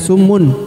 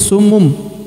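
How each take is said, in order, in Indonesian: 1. Kata ini berakhir dengan bunyi n. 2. Kata ini berakhir dengan bunyi m. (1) "bukan summun" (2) "tapi summum"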